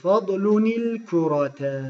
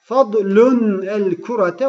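First: The n links to the next word with i. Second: The n ends 'fadlun' without a linking i. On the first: The speaker calls it right. "Buraya bir nun koyuyorsunuz. Kesre ile harekeliyorsunuz" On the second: The speaker calls it wrong. "o acemice bir okuyuş oluyor"

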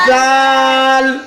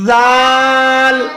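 Both takes have the same delivery.

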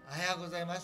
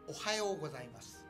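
First: The opening 'o' is said without extra force. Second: The opening 'o' is said with extra force. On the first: The speaker calls it wrong. "ではなく" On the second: The speaker calls it right. "おはようございますのO に力を込めなさい"

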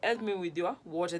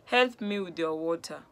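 First: It is said as a question. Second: It is said as a request.

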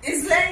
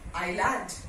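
First: The S sound is heard after the first vowel. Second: No S sound is heard at all. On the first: The speaker calls it wrong. "bhi nahi bolte" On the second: The speaker calls it right. "This is island"

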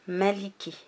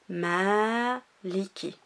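First: The first vowel is kept short. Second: The first vowel is drawn out long. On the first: "elle n'y est pas. On dit direct" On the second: "Ici, tu vois, la prolongation"

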